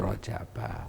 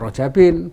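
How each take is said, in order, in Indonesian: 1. Kata ini berakhir dengan bunyi '-a' biasa. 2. Kata ini berakhir dengan bunyi '-in'. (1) "fi Rajaba" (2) "Bukan Rajabin"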